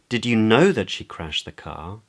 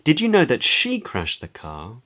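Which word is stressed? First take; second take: know; she. First: The word "know" carries the main stress. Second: The word "she" carries the main stress. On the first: It asks whether the listener knew for certain. "Questions whether the other person knew for certain" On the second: It asks whether the listener is sure who was responsible. "Questions whether the other person is sure of who is responsible"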